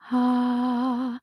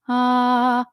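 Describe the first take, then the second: First: The vowel starts with an audible puff of breath. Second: The vowel starts cleanly with no extra air. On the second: "balance, that's just your basic"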